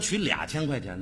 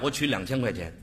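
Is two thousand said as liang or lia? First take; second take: lia; liang. First: Two is said as lia before thousand. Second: Two is said as liang before thousand. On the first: The speaker calls it wrong. "有说取2000 块钱的吗" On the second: The speaker calls it right. "两是两"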